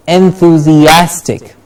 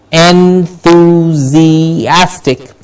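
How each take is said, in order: First: "Enthusiastic" measured but connected; moderately slow, joined-up "Enthusiastic"; a little quicker. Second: "Enthusiastic" extremely slowly, vowels held; long drawn-out en-thuu-zii-AS-tic. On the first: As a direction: say "Enthusiastic" carefully in one flow. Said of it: "a little quicker now". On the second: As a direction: say "Enthusiastic" pulled apart syllable by syllable. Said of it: "say the word a little quicker now". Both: Shown as a demonstration.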